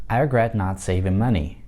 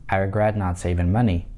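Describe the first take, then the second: No difference in how they are said.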